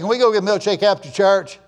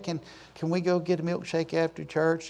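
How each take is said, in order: First: The request sounds cheeky and disrespectful. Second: The request sounds sweet and polite. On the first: The child is being disrespectful. The speaker calls it wrong. "smart aleck kid" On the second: The child is asking respectfully. The speaker calls it right. "if they said it like that"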